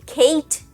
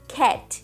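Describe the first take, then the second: First: The vowel is an ay sound, like the letter A. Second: The vowel is the English short a sound. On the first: The speaker calls it wrong. "nem Kate, que seria o som com esse A que eu acabei de te falar, o som do alfabeto" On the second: The speaker calls it right. "a gente fala cat"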